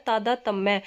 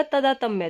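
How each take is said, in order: First: तादातम्य said "taadaatamya"; correct long opening. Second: तदातम्य said "tadaatamya"; wrong short opening. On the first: Teacher giving the correct word, long "taa" opening तादातम्य. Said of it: "शब्द होता है". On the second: Teacher citing the written error, short "ta" opening तदातम्य. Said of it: "क्या लिखा मिलेगा?". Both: Shown as a demonstration.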